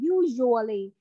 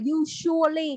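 First: The middle consonant is a soft zh sound. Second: The middle consonant is a sharp s sound. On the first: The speaker calls it right. "Cái âm J của mình á" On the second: The speaker calls it wrong. "không phải là S đâu"

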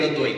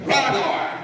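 First: The name is said with a Romanian accent. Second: The name is said with an English accent. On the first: The speaker calls it right. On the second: The speaker calls it wrong.

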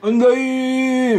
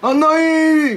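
First: It is said in a lower voice. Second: It is said in a higher voice.

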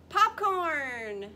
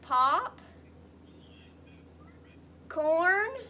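First: The two parts have no pause between them. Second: The two parts have a pause between them. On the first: "Put it together" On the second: "We have"

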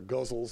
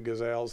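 First: It sounds like the word guzzles. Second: It sounds like the word gazelles. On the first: The speaker calls it wrong. "as some people like to pronounce it, which I think is a horrible way of calling it" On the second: The speaker calls it right. "the crazy gazelles that I've done"

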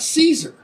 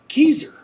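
First: The word begins with an s sound. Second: The word begins with a k sound. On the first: The speaker calls it wrong. "It's not Caesar" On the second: The speaker calls it right. "It's actually Kaiser. As in German, the Kaiser"

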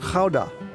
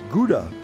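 First: Gouda is said with a Dutch pronunciation. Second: Gouda is said with an English pronunciation. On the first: "the Dutch say it differently. I can try and tell you it's Gouda" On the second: "You might think of it as Gouda, as in Gouda cheese"

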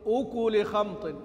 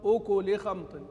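Both takes have the same delivery.

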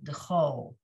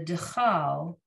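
First: The last syllable has an 'oh' vowel. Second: The last syllable has an 'ah' vowel. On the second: "the dechal, the first word"

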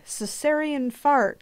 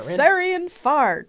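First: The name is read flatly, without emphasis. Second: The name is read with weight and energy. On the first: The speaker calls it wrong. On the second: The speaker calls it right.

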